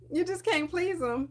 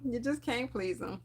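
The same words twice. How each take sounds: First: Higher, emphatic exasperated complaint. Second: Quieter, resigned repeat of "You just can't please 'em"; softer echo. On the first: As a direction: stress can't in "you just can't please 'em", exasperated. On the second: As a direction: let it fall away, resigned. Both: Retold or imitated. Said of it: "I'm just like".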